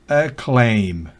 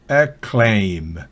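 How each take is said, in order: The two takes are said the same way.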